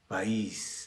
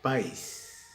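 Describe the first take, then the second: First: The vowels a and i form two syllables. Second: The vowels a and i form one syllable. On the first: The speaker calls it right. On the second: The speaker calls it wrong.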